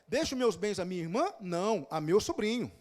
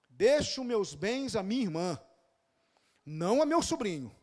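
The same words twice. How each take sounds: First: A question, then 'não' alone as an answer. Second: One statement, with 'não' joined to the sobrinho phrase.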